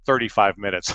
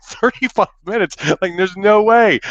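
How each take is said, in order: First: Said in the usual way. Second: High-pitched, louder disbelief; retold panicky protest; incredulous outburst. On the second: Horrified echo of the duration.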